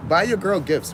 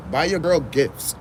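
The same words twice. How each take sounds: First: Said in the usual way. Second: Put-on "Buy your girl gifts" said slowly, each word hit; lecturing the guys, slow and insistent; slow emphatic repeat. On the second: Shown as a demonstration.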